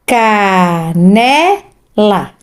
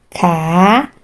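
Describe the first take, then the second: First: "Canela" stretched out syllable by syllable; very slow. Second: Said in the usual way. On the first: Shown as a demonstration. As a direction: sound out "Canela" for a child. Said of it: "sílabas". (bem devagar, sílaba por sílaba) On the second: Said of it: "Então, vamos lá".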